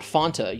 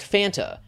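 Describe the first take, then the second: First: The first vowel sounds like the vowel in 'fond'. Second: The first vowel sounds like the vowel in 'fan'. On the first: The speaker calls it wrong. "not Fonta, you absolute brainlet" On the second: The speaker calls it right. "It's pronounced Fanta"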